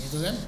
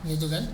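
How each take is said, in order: The two takes are said the same way.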